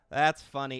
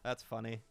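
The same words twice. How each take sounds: First: Much louder, punchy second take; louder amused repeat. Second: Said in the usual way. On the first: Real, not acted. Streamer bursts out, amused at the chat's comment. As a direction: bursts out with it to chat.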